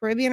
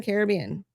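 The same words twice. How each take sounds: First: Caribbean as kuh-RIB-ee-un; quick Caribbean, stressed on RIB; stress on second syllable. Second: Caribbean as CARE-uh-BEE-un; quick Caribbean, main stress on BEE; stress on third syllable. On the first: Host teases chat with both versions, Caribbean as kuh-RIB-ee-un. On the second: Host teases chat with both versions, Caribbean as CARE-uh-BEE-un. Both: Shown as a demonstration. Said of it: "Caribbean or Caribbean".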